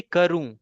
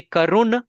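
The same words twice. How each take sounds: First: Karu ending in a nasal oo, no hard n; nasal vowel ending. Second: Karun closed with a clear hard n; wrong N ending. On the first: Shown as a demonstration. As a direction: let karu fade into the nose. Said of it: "I need to say karu". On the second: Retold or imitated. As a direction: imitate the mistake, sounding the n of karun. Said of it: "that is wrong".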